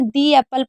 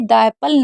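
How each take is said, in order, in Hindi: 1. शब्द 'the' 'thee' जैसा सुनाई देता है। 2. शब्द 'the' 'thuh' जैसा सुनाई देता है। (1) "तो हम इसे दी एप्पल पढ़ेंगे" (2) "द एप्पल नहीं पढ़ेंगे"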